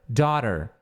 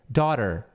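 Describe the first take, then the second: The two takes are said the same way.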